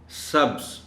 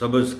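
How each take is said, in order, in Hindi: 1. 'b' और 'z' के बीच कोई स्वर नहीं आता। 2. 'b' और 'z' के बीच एक छोटा 'a' स्वर आता है। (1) "दरमियानी हर्फ पर जज़्म होता है" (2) "उसकी जगह हम आमतौर पर ज़बर इस्तेमाल कर जाते हैं"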